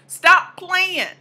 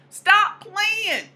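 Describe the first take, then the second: First: Punchy order to the audience; firm command. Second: Higher sassy echo; higher repeat. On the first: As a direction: Stop hit louder and higher. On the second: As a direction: Stop said much higher and playful. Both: Shown as a demonstration.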